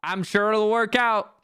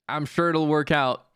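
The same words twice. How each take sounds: First: Raised, insistent repeat; mock-confident, slightly raised voice; overdone reassurance. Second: Said in the usual way.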